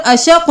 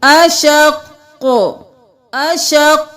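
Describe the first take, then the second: First: Quick spoken "अशक" with a single final q; wrong stop. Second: "अशक" held on the q, then bounced release; doubled qaf stop. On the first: Teacher shows what not to do, "अशक" undoubled. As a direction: say "अशक" without doubling the last consonant. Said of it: "हम यहाँ पर अशक नहीं करेंगे". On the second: Teacher shows the tashdeed stop, "अशक" held then echoed. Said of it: "क्योंकि तशदीद है". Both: Shown as a demonstration.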